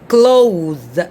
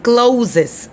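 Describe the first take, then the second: First: The word ends with a soft 'th' sound. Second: The word ends with a plain 'z' sound. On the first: The speaker calls it right. "right here we say clothes" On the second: The speaker calls it wrong. "Not closes"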